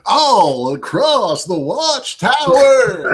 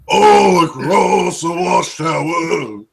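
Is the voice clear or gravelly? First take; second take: clear; gravelly. First: It is said in a clear voice. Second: It is said in a rough, gravelly voice.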